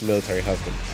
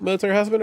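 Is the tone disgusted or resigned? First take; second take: resigned; disgusted. First: It is said with a resigned, knowing tone. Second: It is said with a disgusted tone. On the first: Being married to a soldier is a known hardship. "like you know how it is" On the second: Being married to a soldier is distasteful. "Are you saying that like, ew"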